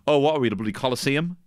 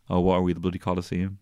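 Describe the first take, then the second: First: It is said in a confident, normal tone. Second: It is said in a timid, hesitant tone.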